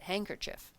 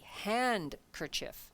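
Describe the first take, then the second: First: The D sound is left silent. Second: The D sound is clearly pronounced. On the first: "that's usually the way people say it" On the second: "you have to actually put in the D"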